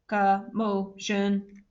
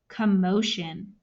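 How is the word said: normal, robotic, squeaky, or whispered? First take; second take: robotic; normal. First: It is said in a flat, mechanical voice. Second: It is said in a normal speaking voice. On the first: "in a robot voice" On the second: "say the word commotion with me"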